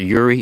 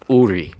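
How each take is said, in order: First: The name begins with a 'y' sound. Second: The name begins directly with a vowel. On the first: The speaker calls it wrong. "It's not Yuri" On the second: The speaker calls it right. "It's Uri. That's how it's pronounced"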